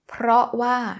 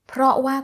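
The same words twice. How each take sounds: First: The r sound after p is pronounced. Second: The r sound after p is dropped. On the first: "การที่ออกเสียง r" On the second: "ก็ได้"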